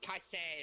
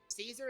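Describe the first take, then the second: First: The name is said the Latin way. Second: The name is said the modern way. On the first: "how it might sound in Latin" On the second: "how it would be pronounced in most other languages"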